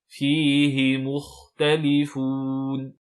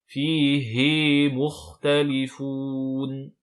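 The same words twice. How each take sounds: First: The vowel after the h is kept short. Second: The vowel after the h is held long. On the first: The speaker calls it right. "la prolongation tombe" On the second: The speaker calls it wrong. "attention à ne pas dire"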